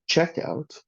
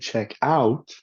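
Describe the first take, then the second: First: The stress falls on the first word, check. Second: The stress falls on the second word, out. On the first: It is a compound noun naming the place to pay. "Rather than, for example" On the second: It is a verb phrase meaning to go and look at. "people tend to stress the second word"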